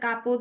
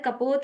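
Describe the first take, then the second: First: The first vowel is long. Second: The first vowel is short. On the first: "ज्यादातर कापोत बोलने में आता है" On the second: "सही वर्ड कपोत है"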